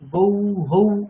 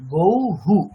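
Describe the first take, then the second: First: The final sound is an echoed 'hau'. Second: The final sound is an echoed 'hu'. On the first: The speaker calls it wrong. "গৌ হৌ এরকম না" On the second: The speaker calls it right. "গৌ হু উকার"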